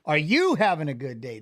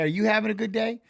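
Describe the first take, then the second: First: "you" hit hard, voice dropped lower; stress on you. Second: "having" leaned on, rising at the end; stress on having. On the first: Streamer turning the question back on chat, "you" stressed. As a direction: punch the word "you" and drop the pitch. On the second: Streamer asking chat about their day, "having" stressed. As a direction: press the word "having" and let the question rise. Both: Shown as a demonstration.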